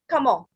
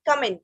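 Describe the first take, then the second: First: It is said with a French pronunciation. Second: It is said with an English pronunciation. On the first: "In French, we say comment" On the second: "In English, we say it comment"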